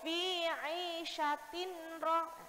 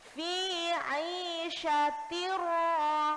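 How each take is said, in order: First: A separate n sound is heard before the r. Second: The n merges straight into the r, unnasalized. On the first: The speaker calls it wrong. "bacanya nggak boleh" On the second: The speaker calls it right. "Masuk ke huruf ro-nya tanpa dengung"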